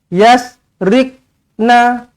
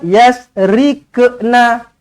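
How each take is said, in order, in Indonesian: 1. Bunyi q ditahan tanpa lantunan. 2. Bunyi q melantun dengan bunyi 'ke'. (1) "tidak melantun langsung" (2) "lantun tapi tak betul"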